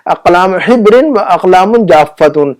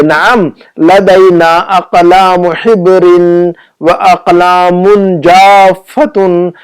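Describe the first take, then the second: First: Measured but connected Arabic reading; quicker repeat reading. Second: Very slow, every long vowel stretched; slow model reading. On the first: Teacher repeating the Arabic phrase after translating, slightly slow and connected. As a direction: read the phrase through without stretching every syllable. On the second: Teacher reading the shopkeeper's Arabic answer to students, slow and drawn-out. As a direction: read it out syllable by syllable. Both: Shown as a demonstration.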